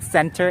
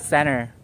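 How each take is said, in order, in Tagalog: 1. Malinaw na binibigkas ang t pagkatapos ng n. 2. Hindi binibigkas ang t pagkatapos ng n. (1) "that's not center" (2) "When letter N and letter E, kuno letter N and letter T are together, you pronounce it as center"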